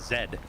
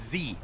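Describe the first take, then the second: First: The letter is named with a final d sound. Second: The letter is named with a long ee sound. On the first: This is how the other group says it. The speaker calls it wrong. "the one that I hate the most is you weirdos say" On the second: This is how the speaker's group says it. The speaker calls it right. "It's Z"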